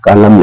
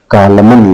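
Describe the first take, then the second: First: कॉलम with a silent final N; correct pronunciation. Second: कॉलमन with the final N sounded; wrong pronunciation. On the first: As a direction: say कॉलम ending on M. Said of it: "कॉलम लिखा है". (कॉलम बिना न की आवाज़ के) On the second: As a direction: say कॉलमन with a clear N at the end. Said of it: "ना कि". (कॉलमन में आख़िरी न साफ़) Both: Shown as a demonstration.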